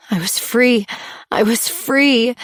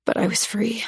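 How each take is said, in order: First: Rising relief. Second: Said in the usual way. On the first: A narrator's reading. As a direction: let the relief swell through. Repeated realization, building.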